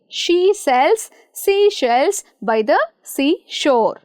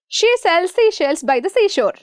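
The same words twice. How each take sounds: First: The sentence is spoken slowly. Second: The sentence is spoken very fast. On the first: "Let us start slowly" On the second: "Shall we rush?"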